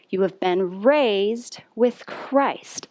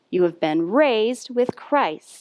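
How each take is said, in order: First: It is said at a slow, steady pace. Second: It is said somewhat faster than before.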